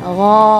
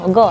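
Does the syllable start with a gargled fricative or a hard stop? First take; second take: gargled fricative; hard stop. First: It starts with a vibrating throaty fricative. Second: It starts with a hard g stop. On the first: The speaker calls it right. "ada getaran" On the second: The speaker calls it wrong. "nggak boleh misalnya go"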